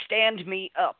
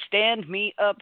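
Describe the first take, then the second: First: Said in the usual way. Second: "Stand me up" repeated a little louder and firmer, "Stand" pushed; insistent repeat. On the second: Retold or imitated. Frail mother insisting her son lift her, firmer. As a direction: insist on it this time.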